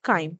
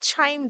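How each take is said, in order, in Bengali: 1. শব্দটি k উচ্চারণ দিয়ে শুরু হয়। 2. শব্দটি ch উচ্চারণ দিয়ে শুরু হয়। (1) "বাট ইটস অ্যাকচুয়ালি কি প্রোনাউন্সিয়েশন হয়?" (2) "এটা এখানে ট্রান্সলেশনে ছাইম দেখাচ্ছে"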